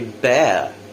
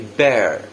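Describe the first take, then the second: First: A British accent with a silent R. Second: An American accent with a pronounced R.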